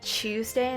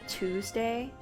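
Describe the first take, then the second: First: The word begins with a 'ch' sound. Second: The word begins with a 't' sound. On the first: "saying C H" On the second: "instead of T W"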